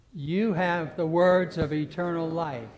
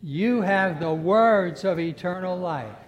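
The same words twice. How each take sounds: First: "You" leads, said louder and slow; loud slow declaration. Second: "words" hit loud and slow, the line much louder; stress on words. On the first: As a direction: declare it slowly with the congregation. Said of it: "The first time we're gonna emphasize". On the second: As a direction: press down on "words of eternal life". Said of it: "I want you to emphasize". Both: Acted.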